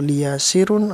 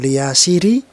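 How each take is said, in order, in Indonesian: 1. Kata ini berakhir dengan bunyi un. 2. Kata ini berakhir dengan bunyi i. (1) "atau liyasirun" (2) "bukan liyasiri"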